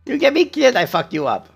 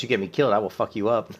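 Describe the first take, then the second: First: Much higher, louder, comic threat; squeaky mock threat. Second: Said in the usual way. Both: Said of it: "repeats the threat".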